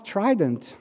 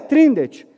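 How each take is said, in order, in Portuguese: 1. Um som de n vem depois do d. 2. Um som de n vem antes do d. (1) "a menina virou assim, ah, Trident" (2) "eu quero esse Trindet aí"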